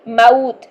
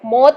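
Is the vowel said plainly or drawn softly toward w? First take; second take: soft glide; plainly. First: The vowel glides softly from a toward w. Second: The vowel is said plainly, without a soft glide. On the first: The speaker calls it right. "नरमी के साथ वाव की तरफ लेके चलेंगे" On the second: The speaker calls it wrong. "मौत नहीं"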